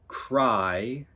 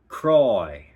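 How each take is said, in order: First: The vowel is plain and unrounded. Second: The vowel is rounded, sounding Australian.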